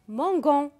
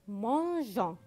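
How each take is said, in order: First: The g is hard, like in go. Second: The g is soft, like in mirage. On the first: The speaker calls it wrong. "Pour ne pas dire mangon" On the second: The speaker calls it right. "mais mangeons"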